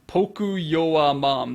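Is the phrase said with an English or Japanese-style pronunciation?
Japanese. It is said with Japanese-style sounds, no R.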